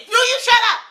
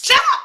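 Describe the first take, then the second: First: High loud snapping question; loud high mock yell; mock angry shout. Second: Shrill, loud yell of shut up; loud high mock yell; mock angry shout. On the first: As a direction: yell it at your mother. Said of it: "and then he said". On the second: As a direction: bark it like the angry son. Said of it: "he pointed his finger in her face".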